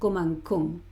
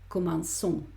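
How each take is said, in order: First: The middle consonant is a hard k sound. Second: The middle consonant is a soft s sound. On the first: The speaker calls it wrong. "Esto es un sonido fuerte" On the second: The speaker calls it right. "¿Cómo hago este sonido suave?"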